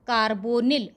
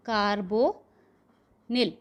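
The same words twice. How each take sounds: First: Said in the usual way. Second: Carbonyl stretched out very slowly with a falling end; slow dictation. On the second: Shown as a demonstration. (carbonyl को बहुत धीरे खींचकर बोलना) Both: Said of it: "तो ये हो गया आपका ... tetra carbonyl".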